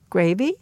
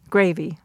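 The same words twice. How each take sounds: First: "Gravy" with the pitch rising, like a question; rising intonation. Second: "Gravy" with the pitch falling, as a statement; falling intonation. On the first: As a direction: offer "Gravy" as a question, voice lifting at the end. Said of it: "So the rising intonation". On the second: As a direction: state "Gravy" flatly as a fact, voice dropping at the end. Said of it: "The falling intonation". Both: Shown as a demonstration.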